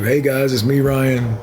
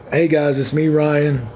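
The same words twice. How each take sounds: First: Intro on cue. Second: Cheery "Hey guys, it's me, Ryan" with a rise on hey; signature intro. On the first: Proving to viewers he can do the intro on cue. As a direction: toss off the catchphrase like stereo. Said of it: "I can do that like stereo". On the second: Showing viewers his usual video intro catchphrase. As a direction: give the catchphrase greeting. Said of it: "do y'all like my". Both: Shown as a demonstration.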